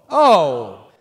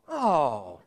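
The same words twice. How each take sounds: First: It sounds like sudden understanding. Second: It sounds disappointed.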